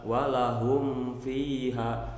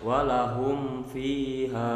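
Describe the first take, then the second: Both takes have the same delivery.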